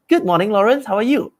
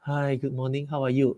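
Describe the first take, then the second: First: Bright, lively, higher greeting; upbeat excited voice. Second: Low, much softer, lifeless greeting; slacky voice. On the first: Sales rep greeting Lawrence the right way, upbeat and excited. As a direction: greet him like you're glad he picked up. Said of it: "always have an upbeat, open, excited voice". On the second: Sales rep answering the call the wrong way, slack and soft. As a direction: sound bored and limp picking up. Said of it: "never pick up a call with a very slacky voice". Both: Shown as a demonstration.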